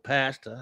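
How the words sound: The word is said with an American accent.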